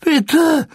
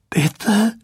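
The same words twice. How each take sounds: First: "bitte" cracks far higher and louder; a desperate, breaking "bitte" much higher and louder than the first. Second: A pleading "Bitte," lifted a little higher; a first, restrained plea, "Bitte," rising at the end. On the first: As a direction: let the voice break upward on "bitte". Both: A narrator's reading. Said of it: "flehte Weasley mit brechender Stimme".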